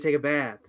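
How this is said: It has an American accent with an 'ah' vowel. "in an American accent, ... a very "ah.""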